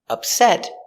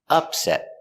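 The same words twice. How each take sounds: First: The stress is on the second syllable. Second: The stress is on the first syllable. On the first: It is an adjective meaning unhappy or troubled. "upset is an adjective with the stress on the second syllable" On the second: It is a noun meaning an unexpected defeat. "The noun is pronounced with the stress on the first syllable"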